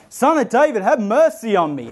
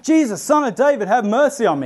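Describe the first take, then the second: First: Higher, pleading yell over the crowd; yelling louder. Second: High, pleading call across a crowd. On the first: Beggar yelling louder as the crowd hushes him, high plea. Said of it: "he just yells even louder". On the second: Blind beggar calling to Jesus over the crowd, high call. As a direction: cry out for mercy, raised and high. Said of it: "he starts calling out". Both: Retold or imitated.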